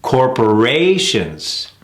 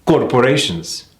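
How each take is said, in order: First: CORPORATIONS slow, with a long RA; third-syllable stress. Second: CORPORATIONS short, without a strong third syllable; mis-stressed corporations. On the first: Coach modelling the right rhythm, third-syllable stress. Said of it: "emphasis on the third syllable". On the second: Coach showing a common mistake, mis-stressed CORPORATIONS. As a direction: keep RA quick in CORPORATIONS. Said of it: "Putting the emphasis on". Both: Shown as a demonstration.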